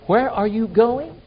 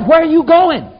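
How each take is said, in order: First: It is said softly and calmly. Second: It is said loudly and excitedly. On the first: A polite, unhurried request to hear where someone is going. The speaker calls it wrong. "Peter didn't say, ... just say that softly" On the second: An alarmed, urgent demand to know where someone is going. The speaker calls it right. "It means excited, like, oh, the house is on fire"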